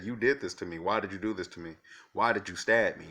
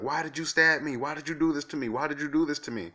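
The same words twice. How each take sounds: First: Said in the usual way. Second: High, loud imitation of a hysterical scream; retold screaming. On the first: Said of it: "And she said". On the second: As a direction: shriek it like the girl with the knife did. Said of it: "she started screaming and, and, and yelling".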